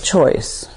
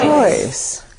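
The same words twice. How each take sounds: First: It is said in a flat, mechanical way. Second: It is said with full, felt energy.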